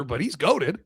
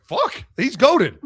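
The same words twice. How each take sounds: First: Said in the usual way. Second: Slow and louder, a stretched-out fan's gasp of awe; mock fan awe. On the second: Imagined fan marvels at the quarterback, slow mock awe. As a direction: drag it out like a stunned fan. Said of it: "You're like".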